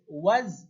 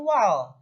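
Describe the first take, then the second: First: The syllable ends in a z sound. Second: The syllable ends in an l sound. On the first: The speaker calls it right. "Jadi bacanya waz" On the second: The speaker calls it wrong. "bukan wal"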